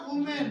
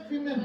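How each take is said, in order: First: वुमेन said "wu-men" with a round u; singular pronunciation. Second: विमेन said "wi-men" with a short i; plural pronunciation. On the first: Teacher contrasts singular वुमेन for the kids. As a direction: say वुमेन with an oo sound. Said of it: "इसका pronunciation होता है वुमेन". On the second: Teacher contrasts plural विमेन for the kids. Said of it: "इसका pronunciation होता है विमेन". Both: Shown as a demonstration.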